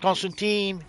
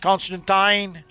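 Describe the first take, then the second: First: The name is said with the American pronunciation. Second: The name is said with a non-American pronunciation. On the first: "it's not Constantine" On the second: "it's Constantine"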